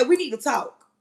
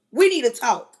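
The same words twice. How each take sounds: First: Said in the usual way. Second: Insistent second We need to talk; firm repeat. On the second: Shown as a demonstration. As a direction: say it like you mean it. Advising women to speak up.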